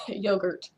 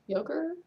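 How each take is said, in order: First: "Yogurt." said flatly with a falling end; "Yogurt." with a settled falling tune; plain statement. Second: "Yogurt?" rising high as a question; amused "Yogurt?" pitched up at the end; puzzled question. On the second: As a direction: ask "Yogurt?" with a higher, rising tune. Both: Shown as a demonstration. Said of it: "because it's laughter yogurt".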